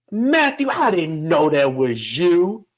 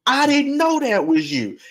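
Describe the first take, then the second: First: A surprised great-grandma draws out the greeting; great-grandma's voice. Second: "I didn't know that was you" sung out much higher; great-grandma's voice. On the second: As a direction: repeat it high and delighted, as the old lady. Great-grandma repeats the greeting. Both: Retold or imitated.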